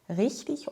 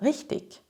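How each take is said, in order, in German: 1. Die Endung klingt wie ein weiches 'ich'. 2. Die Endung klingt wie ein hartes 'ik'. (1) "In der Standardsprache spricht man I G wie ich" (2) "In Süddeutschland, in der Schweiz und in Österreich hört man oft eine andere Variante"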